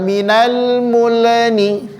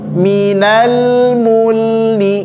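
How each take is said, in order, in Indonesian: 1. Huruf L dilepas dengan gema pantulan. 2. Huruf L mengalir halus tanpa pantulan. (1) "jangan minal mulni" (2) "ngalir lamnya jangan pantul"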